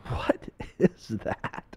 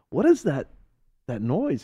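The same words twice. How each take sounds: First: Slow, breath-only question; acted whisper, drawn out in disbelief; hushed bafflement. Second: High-pitched puzzled asking; acted bewilderment, voiced and higher; baffled question. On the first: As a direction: whisper it slowly, word by word. Puzzled friend hears odd noise. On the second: Friend repeats question aloud.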